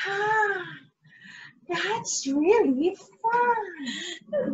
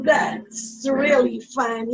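First: Slow, softer puppet voice with a crying catch; slow, soft, sobbing puppet voice; puppet Crookie. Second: Said in the usual way. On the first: Acted. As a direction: drawl it out tearfully as the puppet. Puppet replies to teacher.

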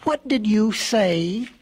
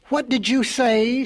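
First: Slow, drawn-out challenge; confronting question. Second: Higher, slow incredulous question; taken-aback question. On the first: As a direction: press each word, demanding an answer. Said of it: "pushing his face up close". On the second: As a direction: ask it as the startled hare. Hare reacts to tortoise's retort. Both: A narrator's reading.

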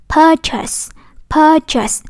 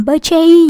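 First: "purchase" with long "pur", short "chus", higher pitch; correct weak ending. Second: "purchase" ending in "chay", as if spelled "per-chase"; wrong second vowel. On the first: Teacher giving the right model, weak-ending "purchase". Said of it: "Mà đọc là". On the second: Teacher showing the common mistake, "chay"-ending "purchase". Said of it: "không có đọc là gì". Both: Shown as a demonstration.

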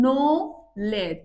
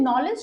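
First: "knowledge" very slow, split as নো, লেজ; two separate beats. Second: Said in the usual way. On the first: Shown as a demonstration. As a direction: break "knowledge" into two drawn-out syllables. ("Knowledge" দুই ঝোঁকে, টেনে টেনে) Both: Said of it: "দুইটা ঝুঁকে উচ্চারণ করছি".

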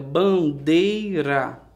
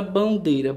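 First: "bandeira" very slowly, split into ban, dei, ra; syllable by syllable. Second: Said in the usual way. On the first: Shown as a demonstration. Teacher showing a word's three parts, "bandeira" syllable by syllable. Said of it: "Três partes". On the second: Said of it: "Palavra bandeira".

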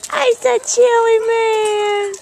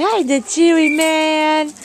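First: Pet talk. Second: Said in the usual way. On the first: Real, not acted. Owner greets Chewy again in higher baby talk. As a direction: coo at the dog.

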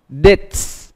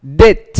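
First: "Dates" ending in a hissed ts; final S voiceless. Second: Said in the usual way. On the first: Shown as a demonstration. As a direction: say "Dates" with a clear voiceless s after the t. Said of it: "S này được phát âm là". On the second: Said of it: "More example".

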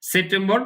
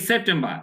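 First: "সেপ্টেম্বর" as sep-tem-bor, R sounded; Bengali pronunciation. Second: "সেপ্টেম্বর" as sep-tem-ba, R dropped; English silent R. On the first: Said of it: "আমরা এখন বাংলায় বলতেছি তাই সেপ্টেম্বর বলবো". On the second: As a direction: model "সেপ্টেম্বর" the English way, ending in "ba". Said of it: "এই আর এর উচ্চারণটা হবে না". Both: Shown as a demonstration.

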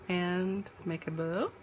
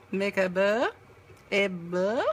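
First: Said in the usual way. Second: Bow said in a mock French accent. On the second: Shown as a demonstration. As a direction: say it like a Frenchman would. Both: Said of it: "That's me trying to speak French".

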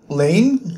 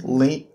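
First: "Lane?" said with a falling tune, guessing the name; unsure name. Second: "Lane?" said lower with a rising question tune; unsure name. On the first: Reviewer guessing a character's name, falling "Lane?". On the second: Reviewer doubting a character's name, rising "Lane?". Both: Shown as a demonstration. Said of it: "I don't know how to pronounce names".

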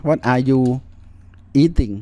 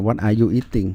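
First: Said in the usual way. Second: Slow careful model. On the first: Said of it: "อ่า What are you eating". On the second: Shown as a demonstration. Teacher repeats the answer slowly for students, slow and careful. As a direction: spell the question out slowly for the class.

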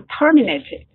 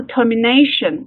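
First: Terminated with TER stressed, the rest lighter; stress on first syllable of terminated. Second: Termination with the weight on NA, third syllable; stress on NA in termination. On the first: Teacher warns class about verb stress, TER stressed in terminated. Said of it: "它的重读是". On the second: Teacher shows class the noun, NA stressed in termination. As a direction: hit NA in termination, falling away after. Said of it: "它的重音节在后面nation这里来了". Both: Shown as a demonstration.

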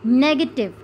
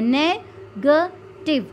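First: Said in the usual way. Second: "negative" slowly broken into three separate beats; split into three syllables. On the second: Shown as a demonstration. Teacher showing three sounds, "negative" slowly split by syllable. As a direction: sound out "negative" with a gap after each syllable. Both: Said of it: "तीन sounds निकलती हैं".

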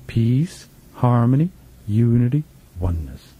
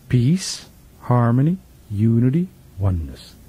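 No difference in how they are said.

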